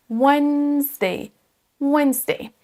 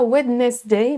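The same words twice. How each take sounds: First: "Wednesday" as WENZ-day, D left out; silent D. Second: "Wednesday" as WED-nes-day, D sounded; D wrongly pronounced. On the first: Teacher modelling for French learners, "Wednesday" with silent D. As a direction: draw out "Wednesday" as WENNZ-day. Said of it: "il est silencieux". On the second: Teacher warning learners, "Wednesday" with audible D. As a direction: mispronounce "Wednesday" as spelt, three syllables. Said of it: "ne pas prononcer le D". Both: Shown as a demonstration.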